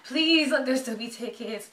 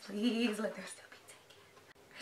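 First: Slow, stretched-out plea; beg, drawing out the please; begging. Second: Slow, soft plea fading away; hushed begging. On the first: Fan next in line for tickets, slowly and openly begging. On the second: Fan next in line for tickets, slow hushed plea. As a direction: beg slowly under your breath. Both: Real, not acted.

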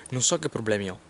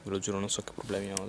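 First: Said in the usual way. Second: Much softer hushed repeat. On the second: Real, not acted. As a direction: drop your voice right down. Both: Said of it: "La gente sta passando".

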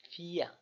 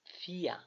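First: "ফিয়া" again with a long ee; long ie vowel. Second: "ফিয়া" with a long, drawn-out ee; long ie vowel. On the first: Teacher repeats the long vowel for students, drawn out. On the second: Teacher shows the long vowel to students, drawn out. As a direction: stretch the ee in "ফিয়া". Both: Shown as a demonstration. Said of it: "উচ্চারণটা একটু লম্বা হবে".

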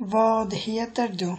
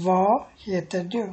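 First: Full "Vad", closing on an audible d; d pronounced in Vad. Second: Open-ended "vo" for Vad, no final d; silent d in Vad. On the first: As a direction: say Vad with its final d sounded, "vod". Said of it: "ডিটা উচ্চারণ করা হয় না". (Vad-এর শেষে ড উচ্চারণ করে) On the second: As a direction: say Vad as "vo", dropping the d. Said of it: "তো এটা হবে এভাবে". (Vad-এর ড বাদ দিয়ে "ভ") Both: Shown as a demonstration.

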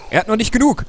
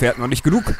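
First: "genug" hoch und laut wiederholt; high dramatic repeat. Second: Said in the usual way. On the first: Shown as a demonstration. (hoch und dramatisch wiederholt)

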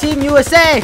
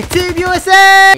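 First: Chanted, loud, high cheer; chanted, cheer it out like at a match; chanted, rally cry; excited chant. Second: Much higher, louder, slow stadium chant; full stadium cheer; drawn-out cheer. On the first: Chanting during a victory moment. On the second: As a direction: belt it out, stretching every word. Repeats the chant, bigger. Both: Real, not acted.

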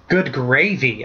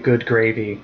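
First: Exclaimed, with a swooping pitch but no real volume; understated storybook yell; mild narrated yell. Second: Said in the usual way. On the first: A narrator's reading. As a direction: cry out in alarm, held back for narration. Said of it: "I yelled". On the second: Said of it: "Only Jessica Walker had ever said".

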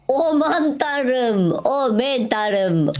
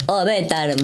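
First: High, slow drawn-out "Aman tanrım"; awestruck, much higher and very slow; amazed gasp. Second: Said in the usual way. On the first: Real, not acted. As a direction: stretch every syllable in open-mouthed wonder. Finds ores, drawn-out awe.

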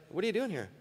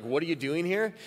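First: Mock confused question, raised in pitch; like someone who truly doesn't know; a touch of bewildered asking for information; puzzled asking. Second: Said in the usual way. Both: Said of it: "not because God's looking for information".

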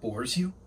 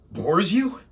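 First: Low, soft, wounded question; quiet disbelief. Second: Rising indignation. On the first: Assistant to his dismissive painter boss, quietly stung. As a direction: ask it under your breath. Opening of performed angry monologue. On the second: Assistant to his dismissive painter boss, indignant. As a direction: repeat it in offended disbelief. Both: Acted.

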